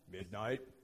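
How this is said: The name is called in a firm, stern voice. The caller expects to be obeyed. "a parent has that tone of voice"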